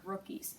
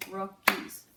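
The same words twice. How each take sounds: First: Said in the usual way. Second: "Rookies" said louder in two clear syllables; teacher's loud, careful "Rookies". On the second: Shown as a demonstration. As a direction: punch out both syllables of "Rookies". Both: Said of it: "two syllables".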